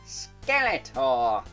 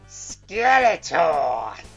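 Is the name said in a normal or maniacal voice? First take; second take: normal; maniacal. First: It is said in a normal speaking voice. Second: It is said in a crazy maniacal Skeletor voice.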